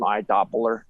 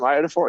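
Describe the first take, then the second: First: The word sounds like eye-doh-poh-ler. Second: The word sounds like eye-oh-doh-for. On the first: The speaker calls it wrong. "He didn't know how to pronounce it" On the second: The speaker calls it right. "Every time I say I, iodophor"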